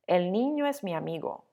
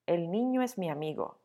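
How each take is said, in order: The two takes are said the same way.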